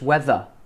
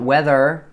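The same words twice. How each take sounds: First: The word ends without any r sound. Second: The word ends with an audible r sound. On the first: The speaker calls it right. "Just weather" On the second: The speaker calls it wrong. "Not weather. Don't end your word with an r"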